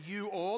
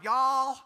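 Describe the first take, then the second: First: It is said as two full separate words. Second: It is squeezed into one short syllable. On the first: "We actually use the whole word" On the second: "leave out letters and words"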